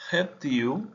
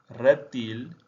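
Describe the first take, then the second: First: "Reptil" with the final l spoken as u; Portuguese "Reptil", ending reptiu; Portuguese pronunciation. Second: Said in the usual way. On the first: Shown as a demonstration. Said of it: "Reptil /eptiu/ vs /retil/". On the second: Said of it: "Reptil /retil/".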